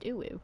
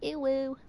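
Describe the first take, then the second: First: It is said in a plain normal voice. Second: It is said in a silly put-on voice.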